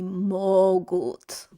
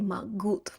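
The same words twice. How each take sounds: First: The stress is on the first syllable. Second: The stress is on the final syllable. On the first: The speaker calls it right. "Они могут. Вот" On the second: The speaker calls it wrong. "So you do not say могут"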